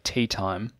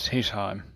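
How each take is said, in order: First: The T sounds are crisp and strongly released. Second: The T sounds are weak and under-articulated. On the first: The speaker calls it right. "a nice strong T" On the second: The speaker calls it wrong. "you might just get sort of a lowered T"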